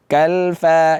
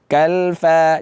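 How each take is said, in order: First: The vowels are open 'a' sounds. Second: The vowels are open 'a' sounds.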